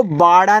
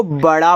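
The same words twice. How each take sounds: First: बाड़ा with a long first aa; wrong long vowel. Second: बड़ा with a short first a, baDaa; correct short vowel. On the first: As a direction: draw out बाड़ा as baaDaa, the mistake. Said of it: "इसको बाड़ा नहीं पढ़ेंगे". (गलत उच्चारण, बाड़ा लंबे आ के साथ) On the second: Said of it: "इसको बड़ा पढ़ेंगे". (सही उच्चारण, बड़ा छोटे अ के साथ) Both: Shown as a demonstration.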